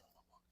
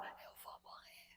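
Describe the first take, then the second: First: Faint breathy whisper with almost no voice; barely voiced whisper. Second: Starts as a voiceless whisper, then thin faint voice; whispering, losing her voice. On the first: A sick woman shows how weak her voice was. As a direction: whisper it like someone who has lost her voice. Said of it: "eu falava assim". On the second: Showing the host how she could barely speak after surgery. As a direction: rasp out the words as if speech hurts. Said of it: "era assim que eu falava". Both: Shown as a demonstration.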